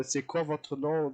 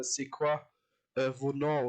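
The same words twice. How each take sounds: First: Said in the usual way. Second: "C'est quoi, äh, vos noms?" said the Louisiana speaker's way; imitating Louisiana pronunciation. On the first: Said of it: "Wenn ich sag". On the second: Reactor showing viewers how the Louisianian says "vos noms", imitated pronunciation. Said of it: "dann sagt er".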